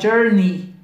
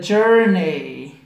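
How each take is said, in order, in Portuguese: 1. A terminação se pronuncia como um som simples de 'ee'. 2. A terminação se pronuncia seguindo a grafia e-y. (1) "Você vai falar journey" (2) "mesmo tendo um E e um Y, você não vai falar journey"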